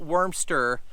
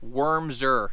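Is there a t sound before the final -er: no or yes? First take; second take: yes; no. First: It ends in -ster with a t sound. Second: It ends in -ser with no t sound. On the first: The speaker calls it wrong. "not Wormster" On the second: The speaker calls it right. "I'm gonna say it correctly"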